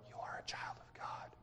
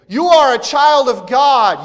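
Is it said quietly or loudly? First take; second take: quietly; loudly. First: It is said quietly and plainly. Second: It is said loudly, like a cry.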